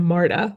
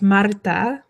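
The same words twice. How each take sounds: First: The name is said with a plain English R. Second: The name is said with a rolled R. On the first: The speaker calls it wrong. "the way we say it in English is wrong" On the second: The speaker calls it right. "It's Marta"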